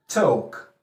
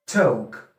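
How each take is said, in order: The two takes are said the same way.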